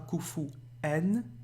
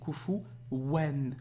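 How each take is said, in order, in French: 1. La syllabe finale commence par une voyelle, sans w. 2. La syllabe finale commence par un son w clair. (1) "c'est pas kufu en" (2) "Vous avez un waouh ici"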